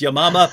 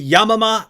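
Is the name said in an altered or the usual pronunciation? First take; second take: usual; altered. First: The name is said in its usual pronunciation. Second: The name is said in an altered pronunciation. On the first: This way invites jokes from listeners. The speaker calls it right. "she pronounced it correctly, which is Yamama" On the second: It is said this way to avoid jokes. The speaker calls it wrong. "I say Yamama ... I deliberately mispronounce it"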